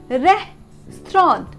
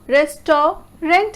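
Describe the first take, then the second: First: It is said compactly, ending like 'strawnt'. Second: It is said syllable by syllable, ending in 'rant'. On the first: The speaker calls it right. "it will be pronounced as restaurant" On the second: The speaker calls it wrong. "Because of the spelling"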